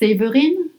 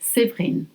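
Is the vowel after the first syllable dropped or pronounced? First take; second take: pronounced; dropped. First: The middle E vowel is pronounced. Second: The middle E vowel is dropped. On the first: "My name is spelled Séverine" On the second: "most people say Séverine"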